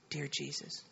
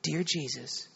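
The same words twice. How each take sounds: First: Very soft, low imitation of a child repeating; retold child's hushed repeat; child echoing prayer. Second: Lightly voiced mother giving a prayer line; retold prayer, soft and low, spoken for repeating; mother leading prayer. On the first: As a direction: echo the prayer line in a tiny hushed voice. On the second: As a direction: lead a child gently in prayer. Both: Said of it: "You just pray after me".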